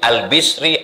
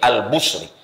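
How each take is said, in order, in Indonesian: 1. Vokal setelah b adalah i. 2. Vokal setelah b adalah u.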